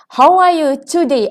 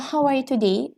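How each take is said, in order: First: It is said slightly louder and more clearly. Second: It is said at a casual conversational volume. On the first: The speaker calls it right. "speak slightly louder and clear" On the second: The speaker calls it wrong. "You cannot talk like in your normal conversation"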